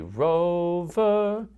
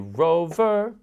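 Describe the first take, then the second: First: Both syllables are longer and slower. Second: Both syllables are short and quick. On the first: The speaker calls it right. "We say rover, which is ta, ta" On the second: The speaker calls it wrong. "we don't say rover, which would be ti, ti"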